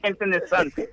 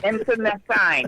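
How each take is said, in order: First: The word ends with a 'sent' sound. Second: The word ends with a 'seen' sound. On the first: The speaker calls it wrong. "It's not internecent" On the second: The speaker calls it right. "The word is internecine"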